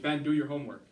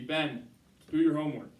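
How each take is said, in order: First: There is no pause after Ben. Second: There is a pause after Ben.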